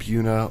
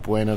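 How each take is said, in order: First: It is said as 'BYOO-na', two plain syllables. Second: It is said as 'BWAY-na', with a 'w' glide. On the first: This is how locals say the name. "natives call it Buna" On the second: This is how the name is said in Spanish. "that's the appropriate Spanish"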